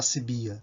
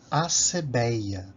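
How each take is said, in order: First: The vowels are said as i, i and a. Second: The vowels are said as e, e and a. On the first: "alguns leem acibia. É muito comum a gente ouvir isso" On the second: "Outra palavra é acebeia"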